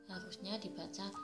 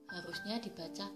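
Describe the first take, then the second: Both takes have the same delivery.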